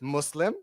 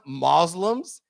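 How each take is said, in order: First: The s in the first syllable sounds like s. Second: The s in the first syllable sounds like z. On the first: The speaker calls it right. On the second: The speaker calls it wrong. "it's not Muslims"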